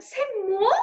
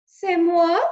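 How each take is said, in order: First: High rising French "C'est moi"; French "C'est moi" repeated; French accent. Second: Loud, high French "C'est moi"; proud French declaration; French exclamation; French accent. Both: Acted. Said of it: "said Antoinette".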